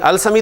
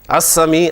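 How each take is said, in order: First: The l sound is pronounced before the s. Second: The l merges into a doubled s sound. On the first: The speaker calls it wrong. "अल-समी तो नहीं कह रहे ना" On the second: The speaker calls it right.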